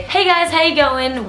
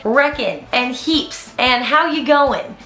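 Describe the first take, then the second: First: Австралийское приветствие; Aussie greeting. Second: Said in the usual way. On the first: Retold or imitated. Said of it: "which I am going to automatically say". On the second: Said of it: "things that I say that they don't say in Canada".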